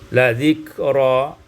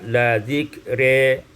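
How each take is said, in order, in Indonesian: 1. Vokal akhirnya adalah a terbuka. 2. Vokal akhirnya cenderung ke e.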